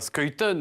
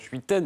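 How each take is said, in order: First: The name is said the Belgian way. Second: The name is said the French way. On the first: "on prononce comme ça quand on est belge" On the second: "Les Français disent souvent Schuiten"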